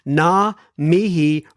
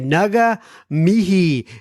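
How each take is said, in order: First: The first word has no separate g sound. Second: The first word has a clear g sound. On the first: "am I uh, saying it right that time?" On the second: "I used to say Naga mihi"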